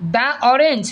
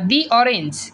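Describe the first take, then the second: First: 'The' is said with a short 'uh' vowel. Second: 'The' is said with a long 'ee' vowel. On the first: The speaker calls it wrong. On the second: The speaker calls it right.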